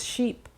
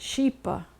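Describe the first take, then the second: First: The word ends cleanly on the p sound. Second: An extra weak vowel follows the final p. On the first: The speaker calls it right. "it's sheep" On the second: The speaker calls it wrong. "It's not sheepa"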